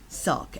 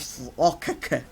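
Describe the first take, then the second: First: The k sound is said only once. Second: The k sound is repeated with extra syllables. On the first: The speaker calls it right. "It's just one k sound" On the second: The speaker calls it wrong. "this is not your sokaka"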